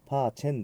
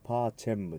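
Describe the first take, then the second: First: The word ends with an n sound. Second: The word ends with an m sound. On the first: The speaker calls it wrong. "パーチェンではなくて" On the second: The speaker calls it right. "語尾がM です。"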